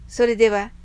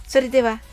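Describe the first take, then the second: No difference in how they are said.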